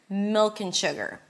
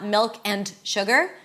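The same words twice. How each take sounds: First: The words are reduced and run together. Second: Each word is said separately and fully. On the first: The speaker calls it right. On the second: The speaker calls it wrong.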